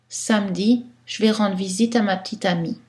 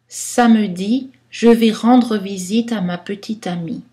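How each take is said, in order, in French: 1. La plupart des voyelles faibles sont omises. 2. Beaucoup de voyelles faibles sont prononcées pleinement. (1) "Dans un style de parler informel" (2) "Style littéraire, poétique, on va prononcer beaucoup de choix"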